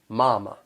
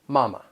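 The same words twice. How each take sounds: First: The first syllable is drawn out and strong. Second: The first syllable is short and plain. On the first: "say this with a southern accent, prolong that first syllable" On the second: "The stress is on the first syllable"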